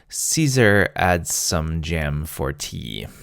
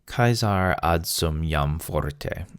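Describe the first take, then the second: First: It is pronounced like ordinary English words. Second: It is pronounced with Latin sounds.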